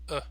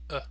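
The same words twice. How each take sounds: First: The word has a short, relaxed schwa vowel. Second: The word has a short, relaxed schwa vowel.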